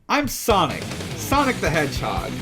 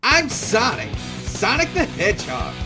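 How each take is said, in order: First: It is said in his normal voice. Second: It is said in a Sonic impression voice.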